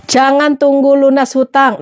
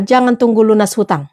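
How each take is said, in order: First: Slower, each word weighed, stress on "tunggu"; slow emphatic repeat. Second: Said in the usual way. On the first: Shown as a demonstration. Repeating her advice to viewers, slow and emphatic. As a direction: lean on "tunggu" and let it sink in.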